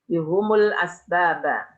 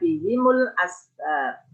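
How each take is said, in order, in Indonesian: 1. Baik h maupun m memakai vokal u. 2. h memakai i dan m memakai u. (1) "bidhammil ha wal mim" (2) "Al-Baqun imam lainnya membaca"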